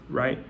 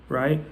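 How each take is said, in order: Both takes have the same delivery.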